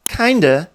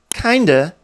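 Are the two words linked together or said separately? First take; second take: linked; linked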